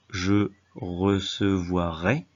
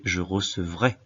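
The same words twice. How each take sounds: First: Recevoirai drawn out syllable by syllable; wrong form recevoirai. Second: Said in the usual way. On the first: Shown as a demonstration. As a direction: spell out the faulty -voirai in slow chunks. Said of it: "on ne dit pas". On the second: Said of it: "mais je recevrai".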